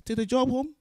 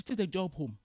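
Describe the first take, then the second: First: "Take the job home?" thrown back high and loud, rising on job; incredulous echo. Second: Said in the usual way. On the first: Retold or imitated.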